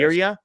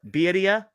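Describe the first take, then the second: First: The r is said plain, without a roll. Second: The r is said with a roll. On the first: The speaker calls it wrong. "I always mispronounce this word" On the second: The speaker calls it right. "There you go. It's a little bit better"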